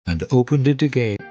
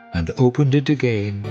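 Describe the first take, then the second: No difference in how they are said.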